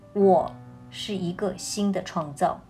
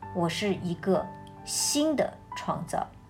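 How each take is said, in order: First: The stress is on the word 我. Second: The stress is on the word 新的.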